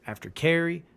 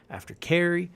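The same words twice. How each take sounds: The two takes are said the same way.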